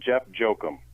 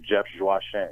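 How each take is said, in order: First: The surname is said the anglicized way. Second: The surname is said the Haitian way. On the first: The speaker calls it wrong. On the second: The speaker calls it right.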